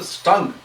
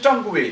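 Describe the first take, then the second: First: The word ends without a final vowel sound. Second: The word ends with an extra pronounced vowel syllable. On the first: The speaker calls it right. "U E and E are silent there" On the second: The speaker calls it wrong. "because there is U E there at the end"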